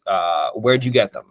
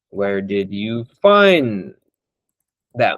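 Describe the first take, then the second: First: Said in the usual way. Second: Drawn out very slowly, each word weighed; slow, pointed question. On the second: Shown as a demonstration. Slowly asking a prospect where he found his callers. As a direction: ask it slowly, letting it land. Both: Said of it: "Actually, this is good".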